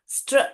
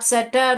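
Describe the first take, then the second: First: The consonants are blended with no vowel between. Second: A vowel separates the consonants into extra syllables. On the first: The speaker calls it right. "स्ट्र स्ट्र स्ट्र ऐसे पढ़ना है" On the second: The speaker calls it wrong. "आप सटर ऐसे पढ़ोगे तो नहीं आएगा"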